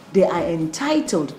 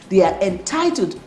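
No difference in how they are said.

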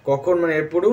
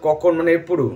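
No difference in how they are said.

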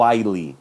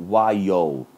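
First: While said as wile with a clear final L; wrong way: while ending in a plain L sound; wrong pronunciation. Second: While said as wai-o, final L like an O; right way: while ending in an O sound; right pronunciation. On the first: Teacher showing students the mistaken while with a hard L. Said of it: "eu falo while". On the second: Teacher correcting students, while with the L sounding like O. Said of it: "tem o som de O". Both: Shown as a demonstration.

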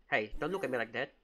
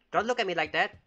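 First: Said in the usual way. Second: Higher, louder repeat warning; insist, voice raised at the child. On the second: Pretend. Babysitter warning the staring baby, voice raised.

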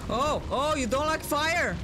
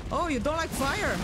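First: High mocking taunt. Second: High mocking taunt again. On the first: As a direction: tease the boss, sing-song. Taunting a boss with fire. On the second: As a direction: tease it, sing-song. Repeating the taunt. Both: Real, not acted.

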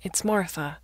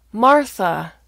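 First: Said in the usual way. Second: MARTHA called out loud and high; exasperated loud repeat. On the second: Acted. Daughter repeating her name to confused father, loud and exasperated. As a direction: raise your voice on Martha.

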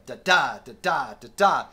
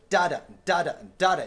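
First: Sung drum rhythm "da-da", the second "da" of each pair hit harder; accent on the second note. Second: Sung drum rhythm "da-da", the first "da" of each pair hit harder; accent on the first note. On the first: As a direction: vocalize the shuffle, leaning on the second "da". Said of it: "it was the second note with the left hand". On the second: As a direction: vocalize the shuffle, leaning on the first "da". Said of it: "the first note". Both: Shown as a demonstration.

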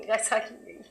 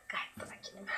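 First: Said in the usual way. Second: Whispered, low and hushed; a sarcastic hushed whisper claiming calm; mock calm whisper. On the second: Shown as a demonstration.

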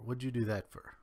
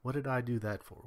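First: "What'd you do that for?" run together with a Kentucky twang, "for" reduced to "fer". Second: Said in the usual way. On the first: Shown as a demonstration. Speaker showing his old accent creep back in, Kentucky twang. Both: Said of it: "the quicker you slide into old habits".

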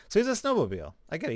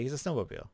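First: Suddenly getting the joke; amused realization. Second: Said in the usual way. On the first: Real, not acted. Streamer spots the snowmobile pun, amused realization.

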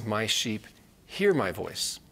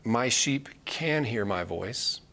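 First: Hear hit with a falling tune; stress on hear. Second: Can leaned on with a rise, said slowly; slow, weigh the word can; stress on can. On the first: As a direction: land firmly on the word hear. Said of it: "He says". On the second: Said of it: "It doesn't say". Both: Shown as a demonstration.

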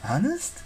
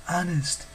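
First: "Honest" lifted high with a rising, hopeful question. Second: "Honest" a bit high, falling in firm assurance; promising. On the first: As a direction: ask "Honest" with pitch climbing at the end. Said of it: "Frank asked". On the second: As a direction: answer "Honest" with a settled falling tone. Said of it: "Hazel promised". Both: A narrator's reading.

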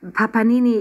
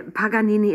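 First: "Papanini" with a p in place of the g; mispronounced name. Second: "Paganini" with a clear g; corrected name. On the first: Girl slips into the penguin's nickname, "Papanini" with a p. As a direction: say "Papanini", swapping g for p. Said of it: "ich meine, Paganini". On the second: Girl corrects herself to the proper name, "Paganini" with a g. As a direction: say "Paganini" with g in the third syllable. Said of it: "ich meine". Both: A narrator's reading.

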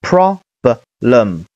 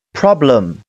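First: "problem" slow, in separated pieces with pauses; syllable-by-syllable blending. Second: "problem" as one connected word, falling at the end; joined-up word. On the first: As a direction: break "problem" into pro, b, lem. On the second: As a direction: say "problem" whole, without breaks. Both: Shown as a demonstration. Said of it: "连起来是".

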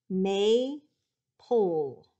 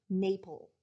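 First: "Maple" broken into MAY, pause, PULL; "Maple" very slowly in two separate beats; split into syllables. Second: Said in the usual way. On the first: Shown as a demonstration. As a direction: draw out each syllable of "Maple", falling at the end. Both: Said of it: "I'm gonna say the word a couple of times".

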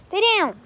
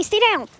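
First: Louder, higher repeat of the order; firm command. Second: Higher, louder order to the dogs; firm command. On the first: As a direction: insist the dog stays down. Commanding jumping dogs. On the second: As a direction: tell the dog to stay down, sharp. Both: Real, not acted.

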